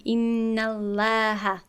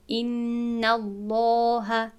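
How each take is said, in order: First: ان الله with the lam thin and light, the error; wrong light lam. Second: ان الله with a full, heavy lam, slow; correct heavy lam. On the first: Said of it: "این نادرست شد". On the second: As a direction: recite الله slowly with a thick lam after the fatha. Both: Shown as a demonstration.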